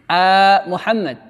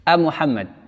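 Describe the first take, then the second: First: The opening vowel is long. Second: The opening vowel is short. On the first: The person called is at a distance. "Atau panjang" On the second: The person called is close by. "ada pendek"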